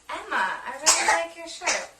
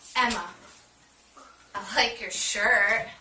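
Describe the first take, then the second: First: It sounds warm and friendly. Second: It sounds unfriendly and sarcastic.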